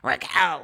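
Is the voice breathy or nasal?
nasal. It is said in a nasal voice.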